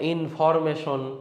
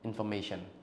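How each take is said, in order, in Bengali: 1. এটি ভারী স্থানীয় টানে বলা হয়েছে। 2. এটি স্ট্যান্ডার্ড ইংরেজি উচ্চারণে বলা হয়েছে। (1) "গরিব এক্সেন আর গরিব pronunciation" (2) "you should say ইনফরমেশন"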